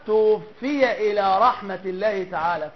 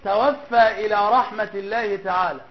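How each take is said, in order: First: The first word ends with an i vowel. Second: The first word ends with a long a vowel. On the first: The deceased's soul was taken. The speaker calls it right. "والصواب" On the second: The deceased is the one who takes souls. The speaker calls it wrong. "بعض الناس يقول"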